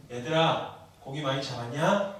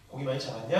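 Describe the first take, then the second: First: Jesus calling out. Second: Said in the usual way. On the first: Acted. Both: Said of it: "이렇게 물어보세요".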